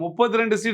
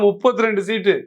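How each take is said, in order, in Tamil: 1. இது தாழ்ந்த, அடக்கிய தொனியில் சொல்லப்படுகிறது. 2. இது வலுவான, அழுத்தமான தொனியில் சொல்லப்படுகிறது.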